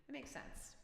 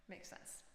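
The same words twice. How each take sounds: First: Said in the usual way. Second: Whispering. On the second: Real, not acted. Repeats phrase in a whisper.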